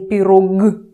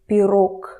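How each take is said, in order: First: The final consonant is a voiced g sound. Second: The final consonant is an unvoiced k sound. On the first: The speaker calls it wrong. "Don't say pirog, pirog. Don't scare people around you" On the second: The speaker calls it right. "g turns to a softer k, k, k quieter"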